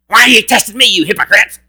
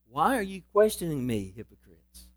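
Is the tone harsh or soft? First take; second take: harsh; soft. First: It is said in a harsh, angry tone. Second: It is said in a soft, loving tone.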